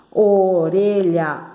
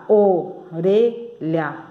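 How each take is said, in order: First: ORELHA said slowly, syllables still linked; drawn-out word. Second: ORELHA very slowly in three separate pieces; syllable by syllable. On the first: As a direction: stretch "orelha" out as one word. ("orelha" devagar, quase emendado) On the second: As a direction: clear pauses inside "orelha". ("orelha" bem devagar, sílaba por sílaba) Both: Shown as a demonstration. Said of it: "três sílabas".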